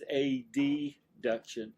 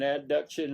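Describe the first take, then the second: First: The opening letters A and D are spelled out. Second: The opening letters are blended into the word. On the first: The term is made easy to tell apart. The speaker calls it right. "I'm gonna pronounce them as abduction versus adduction. I say that just to help you" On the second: The term is easily confused with its opposite. The speaker calls it wrong. "I've heard them as abduction and adduction, and then you sit there and like, what did he say?"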